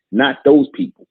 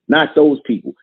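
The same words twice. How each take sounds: First: Sharp high rising exclamation; exclaimed high. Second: Said in the usual way. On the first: Real, not acted. Preacher scoffing at excuse-makers, high exclaimed. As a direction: fling it up high in disbelief. Repeats phrase, first take exclaimed.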